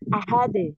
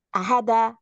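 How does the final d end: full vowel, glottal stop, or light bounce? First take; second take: light bounce; full vowel. First: The final d ends with a light, soft bounce. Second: The final d is followed by a full vowel. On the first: The speaker calls it right. "Ahade, ahade" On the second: The speaker calls it wrong. "Jangan ahada"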